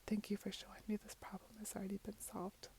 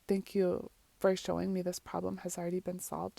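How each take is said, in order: First: It is said very softly. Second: It is said at normal volume.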